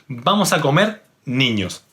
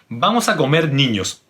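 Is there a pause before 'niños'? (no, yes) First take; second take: yes; no. First: There is a pause before the last word. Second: It runs straight on with no pause. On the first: The children are being called to come and eat. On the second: The children are going to be eaten.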